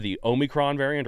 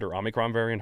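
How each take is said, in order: First: Omicron said with a long oh, OH-mi-cron; oh-micron. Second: Omicron said with an ah, AH-mi-cron; ah-micron. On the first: Host to guest unsure how to say it, oh-micron. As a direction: open Omicron with an oh sound. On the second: Host to guest trying the other way, ah-micron. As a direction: start Omicron with a short ah sound. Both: Shown as a demonstration. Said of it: "however you pronounce it".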